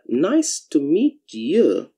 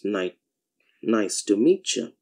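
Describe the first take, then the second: First: The t and y sounds stay separate. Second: The t and y sounds blend into ch.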